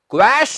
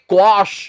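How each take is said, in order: First: The vowel after the w sounds like 'eh'. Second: The vowel after the w sounds like 'ah'. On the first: The speaker calls it wrong. "Wrong absolutely wrong ਕੁਐਸ਼ ਨਹੀਂ ਕਹਿਣਾ" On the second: The speaker calls it right. "ਇਹਦਾ ਸਹੀ ਉਚਾਰਨ"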